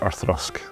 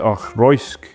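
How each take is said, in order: First: The second syllable rhymes with 'dusk'. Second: The second syllable rhymes with 'boys'. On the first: The speaker calls it right. "pronunciation is Orthrusk" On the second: The speaker calls it wrong. "Most people try Orthroisk"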